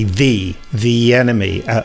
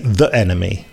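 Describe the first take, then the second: First: 'The' is 'thee' running into the vowel. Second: 'The' is 'thuh' followed by a glottal stop. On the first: This is how older people say it. "old fogies like me say the enemy" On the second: This is how younger people say it. "people in their 20s, that and younger, often say the enemy. They do the glottal stop"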